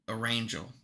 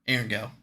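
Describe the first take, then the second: First: The name begins like 'Erin', blended with 'angel'. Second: The name does not begin like 'Erin'. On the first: "which I actually believe now is pronounced Arangel" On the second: "I'm still gonna stick with Erangel because it sounds better"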